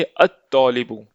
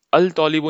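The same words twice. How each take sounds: First: अत-तौलिबु with doubled t, no L; silent L. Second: अल-तौलिबु with L kept before t; wrong reading, L sounded. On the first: Teacher shows how to say student, अत-तौलिबु with L silent. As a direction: drop the L, hold the t in अत-तौलिबु. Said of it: "तो हम बोलेंगे". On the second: Teacher rules out this reading, अल-तौलिबु with audible L. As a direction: pronounce the L in अल-तौलिबु. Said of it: "नहीं पढ़ेंगे". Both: Shown as a demonstration.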